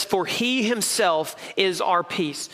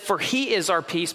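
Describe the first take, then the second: First: "For he himself is our peace" read slowly, leaning on "himself"; slow reading that weights "himself"; stress on himself. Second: Said in the usual way. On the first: Shown as a demonstration. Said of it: "he puts an emphasis". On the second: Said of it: "he could have just said".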